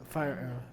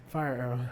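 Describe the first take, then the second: No difference in how they are said.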